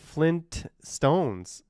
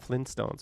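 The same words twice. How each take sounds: First: A T sound is heard after the N. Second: No T sound is heard after the N. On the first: "the Flintstones has two T's" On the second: "I would not put that T in there. I would call it Flintstones"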